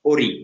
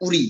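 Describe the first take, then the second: First: ওরি opening on O, not U. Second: উরি opening on U, not O; উরি with short U. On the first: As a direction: say ওরি with a clear "o" as the first vowel. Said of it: "একটা হলো ও". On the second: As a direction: say উরি with a short "u" as the first vowel. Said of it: "উ যেটা রস্য উ". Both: Shown as a demonstration.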